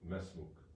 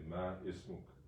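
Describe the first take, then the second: First: The 'i' is dropped, linking straight into 'smuk'. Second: The 'i' of 'ismuk' is pronounced separately. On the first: The speaker calls it right. "You would say mesmuk" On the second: The speaker calls it wrong. "you don't say ma ismuk"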